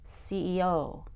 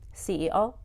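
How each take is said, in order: First: The final O is long and stretched out. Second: The final O is short and not stretched. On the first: The speaker calls it right. "the O at the end of C E O is very lengthened and stretched out" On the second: The speaker calls it wrong. "So I wouldn't say C E O"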